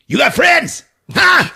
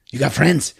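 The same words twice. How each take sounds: First: Loud, high demanding shout; threatening shout. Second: Said in the usual way. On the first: Acted. Bum demands an answer from Jennifer, loud high shout. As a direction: bark the question at the hostage.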